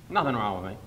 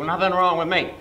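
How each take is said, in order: First: Said in the usual way. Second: Mock insistence.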